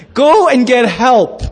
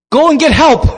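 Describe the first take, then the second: First: Slow, stretched call for help; mock plea, slowly exaggerated; drawn-out plea. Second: Loud, high, urgent call; mock-alarmed shout; acted cry for help. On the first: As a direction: draw out each word pointedly. Repeats wife's plea for effect. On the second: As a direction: cry out as a frightened wife. Wife cries out as toughs harass.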